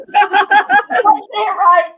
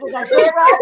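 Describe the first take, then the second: First: Laughing. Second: Said in the usual way. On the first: Real, not acted. Repeats question, laughing.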